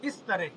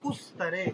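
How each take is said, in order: First: The first vowel is a front 'i' sound. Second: The first vowel is a rounded 'u' sound. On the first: The speaker calls it right. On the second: The speaker calls it wrong.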